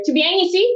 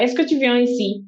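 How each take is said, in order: First: Put-on Toulouse accent, pitched high: "Tu viens ici?"; southern French. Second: Standard French question, slightly fast; a crisp textbook French question. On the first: Imitating a Toulouse local asking a friend, southern accent. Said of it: "in conversation, you hear". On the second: Shown as a demonstration. Teaching a listener the textbook French way. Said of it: "that's what you study".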